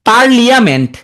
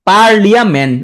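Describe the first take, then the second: First: The word has an 'ee' sound after 'parl'. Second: The same.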